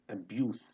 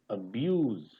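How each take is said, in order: First: The final consonant is an s sound. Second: The final consonant is a z sound. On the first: It is used as a noun. "when it is a noun" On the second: It is used as a verb. "when it is being used as a verb, it becomes abuse. ... So there is Z is there"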